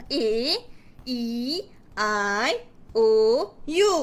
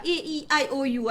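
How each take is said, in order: First: Each vowel slow and separate, with pauses; storytelling technique. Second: Vowels run together without pauses; routine rote recital. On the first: Teacher introducing vowel siblings to a child, expressive storytelling. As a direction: present the vowels one at a time, swooping. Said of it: "Jadi kita buat teknik perceritaan macam ni". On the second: Child answering the usual vowel question, rote recital. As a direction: rattle off the vowels by habit. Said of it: "Asyik-asyik macam tu". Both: Shown as a demonstration.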